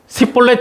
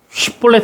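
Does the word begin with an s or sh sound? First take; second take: s; sh. First: The word begins with an s sound. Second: The word begins with an sh sound. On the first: The speaker is from Ephraim. The speaker calls it wrong. "십볼렛 이렇게 되는 겁니다" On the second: The speaker is not from Ephraim. The speaker calls it right. "쉽볼렛 해야 되는데"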